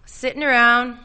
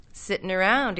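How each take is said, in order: First: Sitting around said higher and louder; emphatic, raised delivery; energetic. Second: Sitting around said vaguely, at an everyday level; unfocused, musing delivery. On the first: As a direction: confirm it with new energy, the picture now clear. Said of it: "he nodded energetically". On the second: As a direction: trail it out loosely, as if picturing it far off. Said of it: "he said, vaguely". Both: A narrator's reading.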